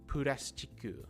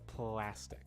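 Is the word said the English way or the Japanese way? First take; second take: Japanese; English. First: It has Japanese sounds with added vowels. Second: It has English sounds with an L sound. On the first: "different ways of saying these words in Japanese" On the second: "instead of"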